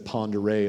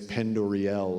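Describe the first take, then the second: First: The name is said as 'ponder-ay'. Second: The name is said as 'pen-doriel'. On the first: The speaker calls it right. "instead of Ponderay" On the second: The speaker calls it wrong. "they mispronounce so many words"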